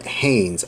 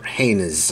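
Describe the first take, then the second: First: "Haynes" said as one syllable; one-syllable pronunciation. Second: "Haynes" split into two syllables, HAY-niz; two-syllable pronunciation. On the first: Offering a company name's first pronunciation, "Haynes" as one syllable. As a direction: say "Haynes" to rhyme with "rains". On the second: Offering a company name's other pronunciation, "Haynes" as HAY-niz. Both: Shown as a demonstration. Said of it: "however you wanna pronounce it".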